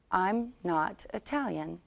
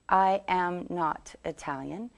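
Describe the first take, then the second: First: "I'm" run together as one syllable; contracted short form. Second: "I am" as two full, separate words; uncontracted long form. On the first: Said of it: "The short version would be". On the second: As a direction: say "I am" in full, each word distinct. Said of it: "We wouldn't normally say". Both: Shown as a demonstration.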